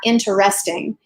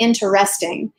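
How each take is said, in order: First: It is said with an unnatural, forced beat. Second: The same.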